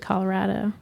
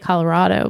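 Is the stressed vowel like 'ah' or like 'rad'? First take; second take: rad; ah. First: The stressed vowel sounds like the vowel in 'rad'. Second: The stressed vowel sounds like an open 'ah'. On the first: The speaker calls it right. "but it's actually Colorado" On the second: The speaker calls it wrong. "We say Colorado"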